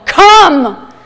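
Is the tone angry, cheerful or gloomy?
angry. It is said in a harsh, angry tone.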